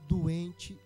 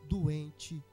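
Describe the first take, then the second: Both takes have the same delivery.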